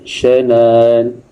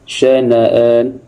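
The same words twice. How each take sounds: First: The hamzah is softened, without a full stop. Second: The hamzah is a full glottal stop.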